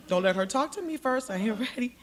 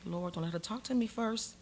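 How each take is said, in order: First: Raised, more insistent begging; urgent plea. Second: Muted plea. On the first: Begging the Lord before Clinton enters, urgent plea. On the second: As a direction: pray it under your breath. Silent plea while gathering herself. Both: Retold or imitated.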